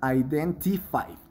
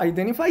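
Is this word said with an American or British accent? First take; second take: British; American. First: It has a British accent with a clear T. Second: It has an American accent with a softer T. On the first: "del inglés original, que es el británico, se diría identify" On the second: "si quieres sonar más eh, americano"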